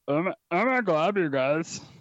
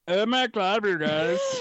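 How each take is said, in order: First: The put-on voice is pitched lower. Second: The put-on voice is pitched higher.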